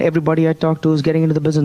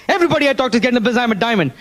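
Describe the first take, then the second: First: Said in the usual way. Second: Very fast and higher, heated; angry repeat. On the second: Retold or imitated. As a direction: rattle it off in determined anger. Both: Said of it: "Now I was really angry".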